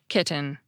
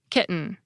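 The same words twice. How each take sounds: First: The middle T is a clear, unaspirated T. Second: The middle T is a glottal stop. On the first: It may sound overly precise to some listeners. "with an unaspirated T" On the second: It sounds completely normal to most listeners. "with a glottal stop"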